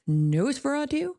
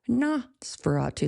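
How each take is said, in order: First: The first syllable sounds like the word no. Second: The first syllable sounds like nos in nostril. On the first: "In no, no, like as in the negative, the opposite of yes" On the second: "like nostril"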